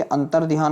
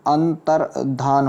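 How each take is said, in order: First: अंतर्ध्यान said "antar-dhiyaan", with y; wrong pronunciation. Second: अंतर्धान said "antar-dhaan", no y; correct pronunciation. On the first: Teacher shows the error, अंतर्ध्यान as "antar-dhiyaan". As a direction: add a y glide in अंतर्ध्यान. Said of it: "अंतर्ध्यान नहीं होता". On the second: Teacher corrects students, अंतर्धान as "antar-dhaan". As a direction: end अंतर्धान on plain dhaan. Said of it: "धान होता है". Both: Shown as a demonstration.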